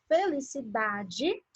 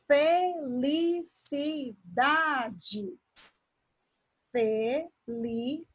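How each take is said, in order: First: Said in the usual way. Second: "felicidade" broken into fe, li, ci, da, de; "felicidade" in measured, separated pieces; syllable by syllable. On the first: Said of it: "Então, na palavra felicidade". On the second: Shown as a demonstration. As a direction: slowly sound out each syllable of "felicidade". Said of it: "Quando eu faço a separação silábica".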